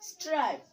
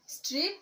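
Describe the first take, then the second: First: স্ট্রাইপ with an "eye" glide, as in "stripe"; long vowel. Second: স্ট্রিপ with a short i, as in "strip"; short vowel. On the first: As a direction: say স্ট্রাইপ with a falling tune. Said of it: "vowel ই যোগে". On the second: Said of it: "vowel ই ছাড়া উচ্চারণ". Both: Shown as a demonstration.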